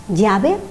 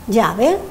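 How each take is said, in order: No difference in how they are said.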